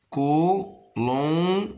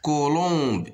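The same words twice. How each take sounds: First: "Colombe" high, in three separated beats; long syllables with gaps in "Colombe". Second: Said in the usual way. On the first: Shown as a demonstration. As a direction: sound out "Colombe" as co, lom, be. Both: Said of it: "Ici, la même chose".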